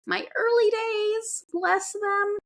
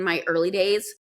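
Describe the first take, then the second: First: Much higher, slower, fondly teasing; pitched way up in mock tenderness for her early days; high doting voice. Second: Said in the usual way. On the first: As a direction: coo it like cooing over a baby. Fond look back at early days.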